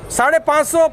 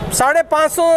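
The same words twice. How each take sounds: The two takes are said the same way.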